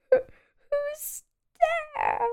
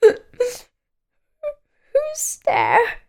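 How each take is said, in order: First: High squeaky voice, much softer and fading; quiet sad squeak. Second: High, squeaky and sad, with a crying edge. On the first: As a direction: ask again, small and forlorn. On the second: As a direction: call out like a forlorn little creature. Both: A narrator's reading. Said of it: "A sad, squeaky sort of voice".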